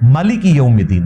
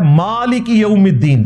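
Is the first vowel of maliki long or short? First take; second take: short; long. First: The first vowel of maliki is short. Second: The first vowel of maliki is long. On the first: This is another accepted reading. "ما میم کے اوپر زبر ہے" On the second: This is the commonly recited Quraysh reading. "ہم کھڑا زبر پڑھتے ہیں"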